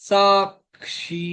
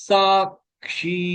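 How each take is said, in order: The two takes are said the same way.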